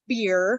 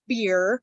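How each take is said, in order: First: The vowel sounds like the one in 'beer'. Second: The vowel sounds like the one in 'beer'.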